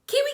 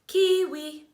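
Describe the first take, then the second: First: The word is said at a faster pace. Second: The word is said at a slower pace.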